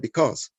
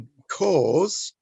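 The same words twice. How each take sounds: First: The word is said very quickly. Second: The word is said slowly and fully. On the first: The idea of a cause is easily forgotten. "very, very quickly say because" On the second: The idea of a cause is more evident. "If we were to say because"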